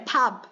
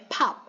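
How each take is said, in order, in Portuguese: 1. A consoante final soa como B. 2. A consoante final soa como P. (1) "não é pub" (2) "é pub, pub, tá? Tem som de P quando termina"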